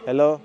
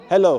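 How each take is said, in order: First: The voice has no noticeable echo. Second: The voice echoes back strongly. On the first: "But from here" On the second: "when I stand on the cross, ... it echoes"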